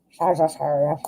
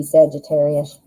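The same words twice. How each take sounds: First: Sagittarius slurred as shah-zhah-sherry-ush, soft; odd Sagittarius. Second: Said in the usual way. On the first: Retold or imitated. Tarot reader fumbling a sign name, mushy Sagittarius. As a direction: Sagittarius mushed with sh sounds, softly. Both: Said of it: "I don't know why I said it like that".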